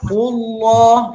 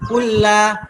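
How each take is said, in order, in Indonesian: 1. Bunyi L tebal. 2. Bunyi L tipis. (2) "itu salah. Itu tipis ya"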